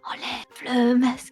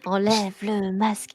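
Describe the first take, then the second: First: It is said in a soft whisper. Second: It is said in a normal voice.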